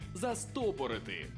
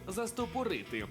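First: The stress is on the second syllable. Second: The stress is not on the second syllable. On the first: The speaker calls it right. "наголос на другий склад" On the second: The speaker calls it wrong. "Для мене теж більш звичний варіант був «застопорити»"

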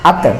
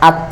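First: The final t is released with a bouncing echo. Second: The final t is held without any bounce. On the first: The speaker calls it wrong. "এখানে যদি কেউ কলকলা করে বলে আত আত, এরকম বললে কিন্তু ভুল হবে" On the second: The speaker calls it right. "Hamza তা জবর আত"

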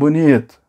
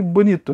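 First: It is said in a scolding, reproachful tone. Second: It is said in a sincere, approving tone. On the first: The person is being scolded for arriving late. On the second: The film is genuinely praised as beautiful.

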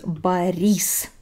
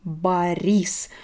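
Both takes have the same delivery.

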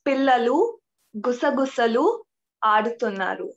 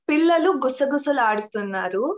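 First: The sentence is said slowly. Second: The sentence is said quickly.

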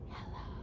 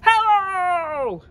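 First: It is said very quietly. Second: It is said very loudly.

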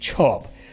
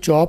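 First: The ch sound bursts with a puff of air. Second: The ch sound has no puff of air. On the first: The speaker calls it right. "आवाज़ blast करके बोलें, छः की आवाज़ करें" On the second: The speaker calls it wrong. "इसको चॉप नहीं बोलें"

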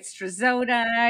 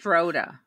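First: The Z is sounded, with an extra syllable. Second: The Z is silent, with no extra syllable. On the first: The speaker calls it wrong. "I get Strazoda" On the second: The speaker calls it right. "So the Z is silent"

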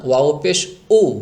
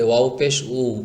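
First: The vowel starts with an abrupt glottal jolt. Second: The vowel flows on smoothly without a jolt. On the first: The letter sounds like hamza or alif instead. The speaker calls it wrong. "এভাবে বলা যাবে না" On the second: The letter is heard as waw. The speaker calls it right. "এটাকে স্বাভাবিকভাবে বলবেন, এভাবে"

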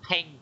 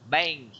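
First: The b is released with a puff of air. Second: The b is soft, with no puff of air. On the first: The speaker calls it wrong. "chứ không phải là bank" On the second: The speaker calls it right. "cái chữ B mà không có bật đó nha, không có đọc âm gió nha"

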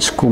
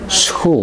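First: It begins with s plus a hard k sound. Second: It begins with s plus a throaty ch sound. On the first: The speaker calls it wrong. "zeg je geen school" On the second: The speaker calls it right. "maar school. Dan is het SG"

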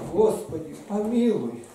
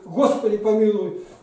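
First: The prayer is said in a soft, humble way. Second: The prayer is said in a forceful, demanding way. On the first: The speaker shows the humility within. The speaker calls it right. "и все говорит о том смирении, которое в тебе есть" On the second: The speaker is seizing God rather than asking humbly. The speaker calls it wrong. "ты Бога за грудки просто хватаешь"

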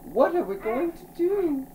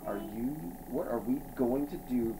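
First: It is read in a put-on character voice. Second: It is read in the reader's normal voice. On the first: The speaker calls it right. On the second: The speaker calls it wrong.

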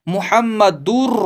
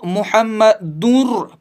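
First: The n sound is dropped into the r. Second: An n sound is kept at the end. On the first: The speaker calls it right. "इसको पढ़ेंगे मुहम्मदुर रसूलुल्लाह" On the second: The speaker calls it wrong. "कुछ लोग इसको मुहम्मदुर पढ़ते हैं, जो कि बिल्कुल गलत है"

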